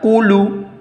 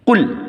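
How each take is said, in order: First: The word ends with an added u vowel. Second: The word ends on the l with no vowel. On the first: The speaker calls it wrong. "tidak dibaca kulu" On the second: The speaker calls it right. "bunyi lamnya mati menjadi kul"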